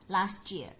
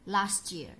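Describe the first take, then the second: First: The t and y merge into a ch sound. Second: The same.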